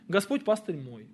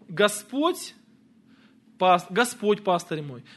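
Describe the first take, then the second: First: The stress falls on the word мой. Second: The stress falls on the word Господь.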